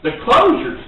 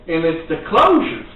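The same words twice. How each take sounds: First: Closures pitched up and hit harder; stress on closures. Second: Said in the usual way. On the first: Shown as a demonstration. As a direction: lift and punch closures. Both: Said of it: "the closing of the sale".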